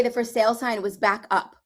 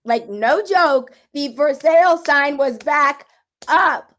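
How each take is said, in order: First: Said in the usual way. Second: Much louder and higher, slow, stressing sale; thrilled, near-laughing repeat of the news; amazed. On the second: Real, not acted. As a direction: shout the disbelief, holding back a laugh. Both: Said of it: "can't even say this without laughing".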